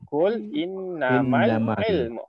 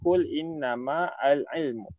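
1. Huruf 'l' langsung disambung ke kata sebelumnya. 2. 'Al' dibaca sebagai suku kata yang terpisah. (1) "Kita kena baca kul innamal ilmu. Terus dia lompat" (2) "Jangan baca kul innama al ilmu. Tak jadi eh"

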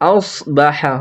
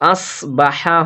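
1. s ধ্বনিটি ভারী ও পূর্ণ। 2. s ধ্বনিটি হালকা ও পাতলা। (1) "আউস আউস বা হ্যাঁ হবে" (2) "সিন যদি না হয়, আস বা হ্যাঁ হবে না"

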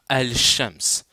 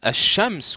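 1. Le L est bien prononcé avant le sh. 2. Le L est muet ; le son sh est doublé. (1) "que de dire" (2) "c'est mieux de dire"

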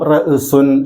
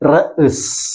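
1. ഈ വാക്ക് അവസാനിക്കുന്നത് കൂട്ടിച്ചേർത്ത 'un' ശബ്ദത്തോടെയാണ്. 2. ഈ വാക്ക് ശുദ്ധമായ ഒരു വ്യഞ്ജനത്തിൽ അവസാനിക്കുന്നു. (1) "എഴുത്തിൽ ഇങ്ങനെ ഉണ്ടാവും" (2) "നമ്മൾ ഉച്ചരിക്കേണ്ടത് ... ഈ രീതിയിലാണ്"

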